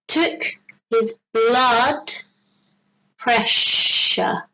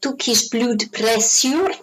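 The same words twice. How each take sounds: First: The middle of 'pressure' has a sh sound. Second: The middle of 'pressure' has a plain s sound. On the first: The speaker calls it right. "So it sounds like a sh sound" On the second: The speaker calls it wrong.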